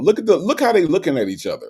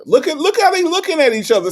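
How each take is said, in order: First: Said in the usual way. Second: Much higher, louder, insistent; excited, pitched up. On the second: Acted. Host teasing Say J about the clowns, excited and high. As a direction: push it up high, teasing Say J to look.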